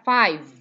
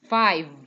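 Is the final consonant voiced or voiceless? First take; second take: voiced; voiced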